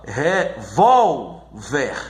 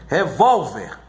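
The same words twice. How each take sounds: First: "revólver" broken as re-VÓL-ver, slow; syllable by syllable. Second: Said in the usual way. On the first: Shown as a demonstration. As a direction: slowly split "revólver", leaning on the middle syllable VÓL. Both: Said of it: "na sílaba mais forte".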